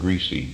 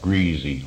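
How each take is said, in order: First: The middle consonant is a hissing s sound. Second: The middle consonant is a buzzing z sound. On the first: "instead of greasy" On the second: "like that's it's a Z"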